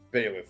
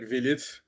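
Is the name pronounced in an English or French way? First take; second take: English; French. First: The name is pronounced the English way. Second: The name is pronounced the French way.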